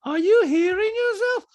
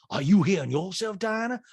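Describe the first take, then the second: First: Loud, very high, slow question; Diana. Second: Lightly imitated comeback, slightly raised; Sutton. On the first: Retold or imitated. Diana challenging Sutton, high loud impression. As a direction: mimic her challenge way up high. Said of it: "Diana's like". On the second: Sutton throwing the question back at Diana, mild mimicry. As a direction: turn the question back on her. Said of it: "Son goes".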